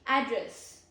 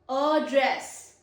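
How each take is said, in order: First: The stress is on the first syllable. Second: The stress is on the second syllable. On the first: It names the location of a person or place. "This is the stress on first syllable" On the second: It means to speak to someone formally. "it has stress on second syllable"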